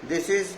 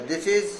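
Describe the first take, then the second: The two takes are said the same way.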